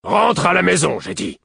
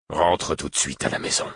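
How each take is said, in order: First: Much louder, high-pitched furious command; angry roar. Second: Controlled paternal command, voice held down; stern order. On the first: A narrator's reading. Father repeats the order to his defiant son, roaring. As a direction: roar the order at a disobedient child. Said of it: "et Buric gronda". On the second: Acted. Father orders his runaway son home, controlled and stern. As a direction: order the child home without shouting.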